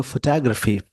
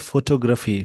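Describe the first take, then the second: First: फोटोग्राफी as "fuh-TAH-gruh-fee"; reduced first vowel, stressed TAH in फोटोग्राफी; American pronunciation. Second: फोटोग्राफी with full o's, "FO-TO-graafi"; usual Indian pronunciation. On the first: Teacher contrasting it with the normal way, American pronunciation. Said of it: "American English में बोलेंगे". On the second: Teacher showing how people normally say it, usual pronunciation. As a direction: say फोटोग्राफी evenly as spelt, "foto-graafi". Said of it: "normally इसको लोग बोलते हैं". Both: Shown as a demonstration.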